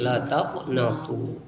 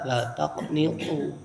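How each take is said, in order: First: The vowel after the n is a. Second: The vowel after the n is i. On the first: "bisa juga dibaca dengan fathah nun" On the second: "bikasrin nun artinya dikasrohkan nunnya"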